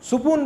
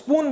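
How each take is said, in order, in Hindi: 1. एक छोटा स्वर s और p की ध्वनियों को अलग करता है। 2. s और p एक साथ, क्लस्टर की तरह बोले जाते हैं। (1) "सुपून बोल देगा, वो क्लस्टर बनने ही नहीं दे रहा है" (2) "अगर स्पून बोलते हैं"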